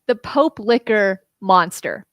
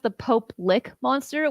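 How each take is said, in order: First: The second word sounds like 'licker'. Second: The second word sounds like 'lick'. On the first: The speaker calls it wrong. "I want to tell it to you how I misread it" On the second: The speaker calls it right. "it's actually pronounced the Pope Lick Monster"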